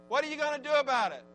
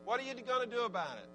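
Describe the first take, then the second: First: 1 louder. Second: Said in the usual way. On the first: Shown as a demonstration. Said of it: "repeated louder, higher". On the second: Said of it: "preacher repeats question".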